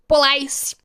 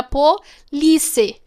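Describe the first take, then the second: First: "Police" said po-LAIS, rhyming with ice; misread as po-LICE. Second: "police" drawn out syllable by syllable as po-LI-ce; Portuguese-style reading. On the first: Showing viewers how she misread it, po-lais. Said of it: "eu li assim, no carro tava escrito". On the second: Explaining the car lettering to viewers, Portuguese-style po-li-ce. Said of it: "Wise era de police". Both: Shown as a demonstration.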